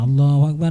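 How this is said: It is said in a festive, celebratory way.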